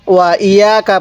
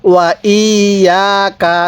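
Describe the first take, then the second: First: ইয়াকা rushed, with the long vowels cut short; fast, unstretched ইয়াকা; common mistake demo. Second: Measured, lengthened ইয়াকা; correct recitation demo. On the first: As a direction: say ওয়া ইয়াকা quickly, no held vowels. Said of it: "কি ভুল করি আমরা?". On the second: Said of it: "না, ওয়া ইয়াকা।". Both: Shown as a demonstration.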